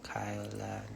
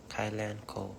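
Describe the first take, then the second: First: Name tried out in a whisper. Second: Said in the usual way. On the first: Shown as a demonstration. Rehearsing her name for the camera, whispered first. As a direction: breathe the name once, testing it. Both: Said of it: "Hello, the".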